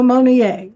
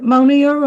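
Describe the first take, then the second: First: Monier said French-style, ending in "-ay"; French pronunciation. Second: Monier said English-style, ending in "-eer"; anglicized pronunciation. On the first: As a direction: say Monier as "moh-nyay", silent r. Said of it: "He says Monier". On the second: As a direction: say Monier as "moh-neer". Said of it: "we've anglicized it". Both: Shown as a demonstration.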